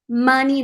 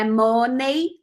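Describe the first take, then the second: First: The final vowel sounds like 'ee'. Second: The final vowel sounds like 'ay'. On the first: The speaker calls it right. "É "i" no final" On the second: The speaker calls it wrong. "não é "ei""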